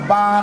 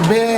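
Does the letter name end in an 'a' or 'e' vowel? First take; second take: a; e. First: The letter name ends in an 'a' vowel. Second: The letter name ends in an 'e' vowel. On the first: The speaker calls it right. "যেটা হবে আলিফ, বা" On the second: The speaker calls it wrong. "সেই ছোটবেলায় পড়ছি আলিফ, বে ... আমাদের পড়াটা ছিল ভুল"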